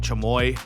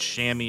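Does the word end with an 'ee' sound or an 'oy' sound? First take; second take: oy; ee. First: The word ends with an 'oy' sound. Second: The word ends with an 'ee' sound. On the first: The speaker calls it wrong. "It looks like Chamoy" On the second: The speaker calls it right. "It's Shammy is how you pronounce it"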